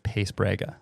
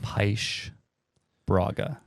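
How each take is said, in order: First: The name is said with a North American pronunciation. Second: The name is said with a Portuguese pronunciation. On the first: This is how the name came to be said over time. "the North American pronunciation of it is Pace Braga" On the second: This is the original family pronunciation. "my dad would say it being the Portuguese man"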